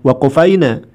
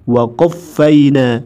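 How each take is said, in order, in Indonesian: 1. Bunyi q pendek, tidak digandakan. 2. Bunyi q ditahan dan digandakan. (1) "bukan waqafaina" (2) "harus pakai tasdid"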